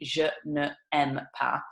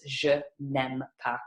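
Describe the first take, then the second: First: Ne is a full separate syllable before aime. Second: The n runs straight into aime, no vowel. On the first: The speaker calls it wrong. "you don't say" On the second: The speaker calls it right. "you link it all together"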